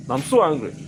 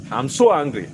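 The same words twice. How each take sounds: The two takes are said the same way.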